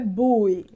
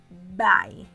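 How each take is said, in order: First: The word sounds like 'boo-ee' with two vowels. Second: The word sounds like 'bye' with one vowel. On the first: The speaker calls it wrong. "Não é bui" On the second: The speaker calls it right. "Então a gente diz bye"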